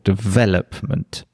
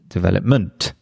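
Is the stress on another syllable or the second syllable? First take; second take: second; another. First: The stress falls on the second syllable. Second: The stress falls on another syllable. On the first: The speaker calls it right. "obviously it has the stress on the second syllable" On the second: The speaker calls it wrong. "then it's just it's really strange"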